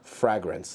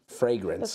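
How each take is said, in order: First: The first vowel is short, as in 'bag'. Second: The first vowel is long, as in 'day'. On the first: The speaker calls it wrong. "Frag grenade. ... Frag. Fragrance. That's how you say it" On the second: The speaker calls it right. "Frag. Like AIDS. Fragrance"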